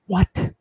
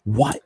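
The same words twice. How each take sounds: First: High, incredulous "What?"; disbelieving first "What?"; baffled what. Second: Said in the usual way. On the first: Real, not acted. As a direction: ask it in utter disbelief. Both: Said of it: "What? What? What?".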